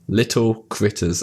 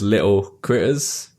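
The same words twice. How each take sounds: First: The T sounds are clearly pronounced. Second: The T sounds are dropped.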